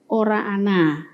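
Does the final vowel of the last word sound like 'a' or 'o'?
a. It is said in the Banyumasan dialect, ending in 'a'. "Kalau pada dialek Banyumasan menjadi"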